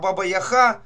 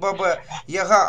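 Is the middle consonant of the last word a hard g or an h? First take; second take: h; hard g. First: The last word has a breathy h sound. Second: The last word has a hard g sound. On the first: The speaker calls it right. "а Баба-Яха, тогда уже будет правильно" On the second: The speaker calls it wrong. "не Баба-Яга"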